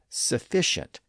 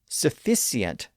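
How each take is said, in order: First: The middle consonant is an SH sound. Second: The middle consonant is a plain S sound. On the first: This is the newer pronunciation. "the S H sound" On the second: This is the older pronunciation. "previously had a simple S sound"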